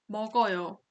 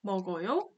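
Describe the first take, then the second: First: 먹어요 with the pitch dropping at the end; 먹어요 closing downward, a statement; falling statement tune. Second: 먹어요 with the pitch lifting at the end; 먹어요 as a question, rising on the last syllable; rising question tune. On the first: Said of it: "Intonation goes down". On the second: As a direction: ask 먹어요 with the end sweeping up. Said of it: "it goes up at the end". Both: Shown as a demonstration.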